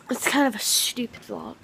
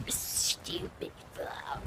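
First: Said in the usual way. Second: Slow drawn-out whisper. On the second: Shown as a demonstration. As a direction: whisper the title, slowly. Repeats title in whisper.

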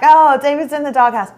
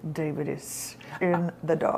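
First: Playing along brightly for show; mock-breezy, covering up the anger; light joking agreement. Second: Low, very quiet seething; mean it darkly under your breath; quiet, deep mock menace; suppressed rage. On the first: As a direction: act like it's all a joke. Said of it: "But seriously, what I'm thinking is". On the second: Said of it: "It was rage".

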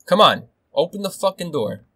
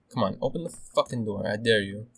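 First: High, loud, exasperated demand; frustrated raised-voice dare; shouted challenge. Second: Restrained muttered challenge; tense, contained goading. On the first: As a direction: goad them loudly to come in. Same dare, now shouted in frustration. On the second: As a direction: dare them under your breath. Quietly dares enemy behind door. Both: Real, not acted.

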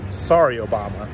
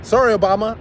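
First: Low, flat final brush-off; dismissive sign-off. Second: Bright, raised mock-sorry opener; mock apology. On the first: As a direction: drop the pitch down low and close the door. Closing defiant message to Obama. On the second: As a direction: toss off a fake apology, pitched higher and a bit louder. Opening defiant message to Obama. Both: Real, not acted.

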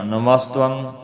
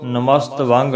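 First: ਨਮਸਤੰ as one word, namastvang with short nasal ending; correct joined pronunciation. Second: ਨਮਸਤ ਵਾਂਗ as two words with a long aa and hard g; wrong split pronunciation. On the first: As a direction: glide a light v into the end of ਨਮਸਤੰ. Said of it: "ਇਹਨੂੰ ਇਸ ਤਰ੍ਹਾਂ ਬੋਲਣਾ ਹੈ". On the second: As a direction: break after ਨਮਸਤ, then a full ਵਾਂਗ. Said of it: "ਨਹੀਂ ਕਹਿਣਾ". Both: Shown as a demonstration.

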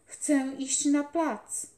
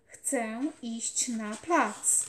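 First: Put-on loud, slow, high plea from a sick boy; raised, drawn-out child's cry; boy calling out. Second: Very slow, firm, insistent repeat; stubborn, deliberate demand; more firmly. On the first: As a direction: call it out slowly and eagerly. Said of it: "Zawołał". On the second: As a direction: dig in your heels, word by word. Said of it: "powtórzył jeszcze bardziej stanowczo". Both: A narrator's reading.

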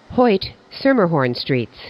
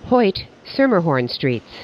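The two takes are said the same way.

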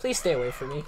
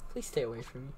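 First: Said in the usual way. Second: Hushed, softer plea; whispering while hiding. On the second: Real, not acted. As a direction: beg under your breath. Hiding, begging ghost.

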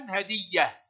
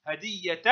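First: هدية as "hadiyyah", ending on soft h; pausal ha. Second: هدية as "hadiyyatan", t and ending heard; sounded ta. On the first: Teacher showing pupils the stop, pausal h in هدية. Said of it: "وهاء عند الوقف". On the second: Teacher showing pupils connected reading, sounded t in هدية. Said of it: "تنطق تاء في الحركة". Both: Shown as a demonstration.

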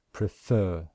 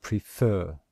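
First: Prefer said again, fer stressed; teacher repeating pre-FER for learners; stress on second syllable. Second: Prefer, slow, second syllable stressed; a teacher modelling prefer with stress on fer. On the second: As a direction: demonstrate pre-FER for the class. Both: Shown as a demonstration. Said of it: "syllable which we stress".

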